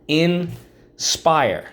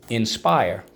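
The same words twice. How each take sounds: First: Sing-song drill. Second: Said in the usual way. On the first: Shown as a demonstration. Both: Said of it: "First syllable, in, second syllable, spire".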